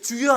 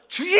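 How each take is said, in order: First: It is shouted at a normal loudness. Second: It is shouted even louder, competitively.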